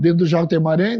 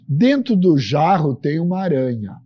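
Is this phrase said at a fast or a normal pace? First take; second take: fast; normal. First: It is said very quickly. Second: It is said at a normal, unhurried pace.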